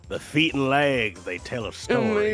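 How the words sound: It is said in a put-on character voice.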